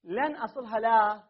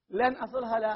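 First: لا drawn out and stressed at the end; teacher stressing لا in a quoted view. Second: لن hit first and hardest, أصلها لا said lighter; teacher repeating the view with the weight on لن; stress on lan. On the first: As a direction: lean on the final word لا, keep لن light. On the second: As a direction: punch the opening word لن. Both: Shown as a demonstration. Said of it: "بعضهم قال".

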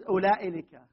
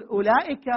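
First: أولئك said as ulailika, with an added لك; wrong form with lam. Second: أولئك said with a short ending and no lam; correct short form. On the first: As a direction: put the wrong لك on the end of أولئك. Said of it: "لك، مو لك". (نطق أولئك خطأ مع لام البعد) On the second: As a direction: say أولئك without the extra لك. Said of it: "ولا يجوز أولئك". (نطق أولئك بلا لام) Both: Shown as a demonstration.

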